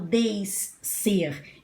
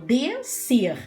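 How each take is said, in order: First: The s and c are two separate sounds. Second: The s and c merge into one sound. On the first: The speaker calls it wrong. "eu não falo descer" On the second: The speaker calls it right. "eu falo descer... eu escuto o único som"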